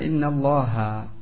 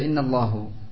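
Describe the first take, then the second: First: The word ends with an a vowel. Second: The word ends with a u vowel. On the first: The speaker calls it right. "Harusnya dibaca innallaha" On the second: The speaker calls it wrong. "Jadi dia baca innallahu. Ini tidak mempengaruhi makna. Cuma apa? Keliru salah dalam lafaz"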